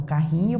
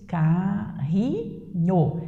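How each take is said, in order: First: Said in the usual way. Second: "Carrinho" broken into three long, separate beats; syllable by syllable. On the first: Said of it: "carrinho possui três sílabas". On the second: Shown as a demonstration. Teacher showing the class the three syllables, "Carrinho" split slowly. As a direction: stretch out each syllable of "Carrinho". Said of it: "três pedaços, três partezinhas".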